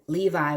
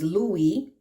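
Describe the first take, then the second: First: The name has a V sound in the middle. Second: The name has a W sound in the middle.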